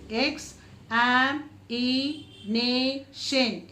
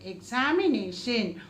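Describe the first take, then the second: First: Very slow, every syllable pulled apart. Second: Said in the usual way. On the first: Shown as a demonstration. Teacher spelling out sounds for children, very slowly. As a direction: stretch it out syllable by syllable. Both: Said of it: "Five times".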